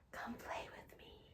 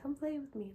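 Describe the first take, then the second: First: It is said in a creepy whisper. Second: It is said in a plainer, less whispered voice.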